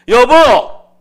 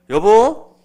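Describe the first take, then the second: First: The call is said much louder. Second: The call is said at normal volume.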